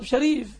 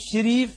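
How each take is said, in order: First: The first vowel is an a sound. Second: The first vowel is an i sound. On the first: The speaker calls it right. "والصواب شريف" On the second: The speaker calls it wrong. "لماذا تكسر اسمك؟ المصريون يقولون شريف"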